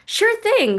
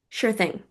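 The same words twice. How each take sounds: First: It is said brightly, with lots of enthusiasm. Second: It is said flatly, with little enthusiasm. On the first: The reply may come across as overly eager. "Do you use an exclamation mark?" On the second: The reply may come across as rude. "Do you use a period? And then it sounds like"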